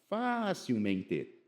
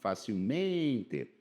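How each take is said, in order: First: The stress falls on the first syllable, fa. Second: The stress falls on the syllable men. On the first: The speaker calls it wrong. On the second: The speaker calls it right.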